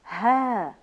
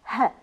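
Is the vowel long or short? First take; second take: long; short. First: The vowel is long. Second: The vowel is short. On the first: "والأصوات الطويلة" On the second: "الأصوات القصيرة"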